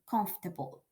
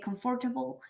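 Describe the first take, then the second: First: A middle syllable is dropped. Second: All the syllables are said in full. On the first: The speaker calls it right. "the way to say, to do it is comf-" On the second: The speaker calls it wrong. "it's not very usual"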